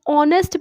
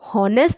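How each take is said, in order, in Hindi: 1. शब्द की शुरुआत एक स्वर से होती है, कोई h नहीं। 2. शब्द की शुरुआत एक सुनाई देने वाली h आवाज़ से होती है। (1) "एच जो है साइलेंट होता है" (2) "इस शब्द को हॉनेस्ट प्रोनाउंस नहीं करते"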